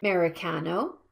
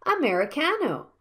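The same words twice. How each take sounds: First: "Americano" misstressed as AH-mericano, lower and rising; stress on first vowel. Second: "Americano" quickly, as uh-meri-CAH-no; reduced first vowel. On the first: Teacher shows learners a mistake, "Americano" stressed on AH. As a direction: hit a full AH at the start of "Americano". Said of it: "If you stress the first vowel like". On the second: Teacher models for learners, "Americano" with a quick schwa. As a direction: skim over the first vowel of "Americano", stress the fourth. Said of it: "should be sounded silently and quickly". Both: Shown as a demonstration.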